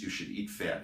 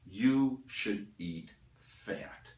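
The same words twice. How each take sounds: First: Said in the usual way. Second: "You should eat fat" very slow, each word set apart; emphatic. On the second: Real, not acted. Lecturer overturning diet advice, "You should eat fat" slowly emphasized. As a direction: pause between the words, landing firmly on "fat". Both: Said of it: "I want to emphasize an unusual aspect".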